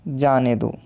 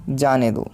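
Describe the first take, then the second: No difference in how they are said.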